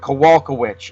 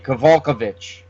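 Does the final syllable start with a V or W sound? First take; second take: W; V. First: The final syllable starts with a W sound. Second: The final syllable starts with a V sound. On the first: "usually pronounced witch, like W I W H I C H" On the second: "you could maybe say the W is a V"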